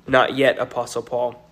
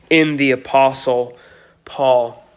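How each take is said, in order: First: "not yet" slowed and stressed, then "Apostle Paul". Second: Said in the usual way. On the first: Shown as a demonstration. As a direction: lean on "not yet" as a correction.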